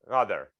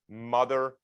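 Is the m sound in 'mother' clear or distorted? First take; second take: distorted; clear. First: The m sound is distorted, lips kept open. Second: The m sound is clear, lips closed. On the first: "I'm going to try to do it now. Try this at home without closing your mouth" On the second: "I'll do it on the video here"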